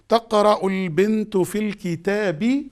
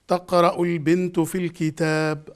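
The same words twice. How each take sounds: First: The final case vowel is clearly pronounced. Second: The final case vowel is left off. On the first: "This is grammatically reading" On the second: "I'm not supposed to ... make this vowel clear"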